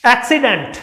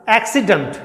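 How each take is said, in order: First: एक्सीडेंट with a full dent; wrong एक्सीडेंट, ending dent; wrong reading. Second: एक्सीडेंट with a short dənt; the right एक्सीडेंट, ending dənt; correct pronunciation. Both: Shown as a demonstration. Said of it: "एक्सीडेंट नहीं होता".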